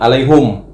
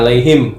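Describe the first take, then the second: First: The last syllable has the vowel u. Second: The last syllable has the vowel i. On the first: This is how that reciter's tradition reads it. "Dia baca alaihum" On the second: This is the reading that reciter does not use. "Enggak alaihim"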